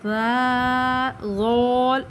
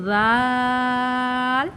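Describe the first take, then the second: Both takes have the same delivery.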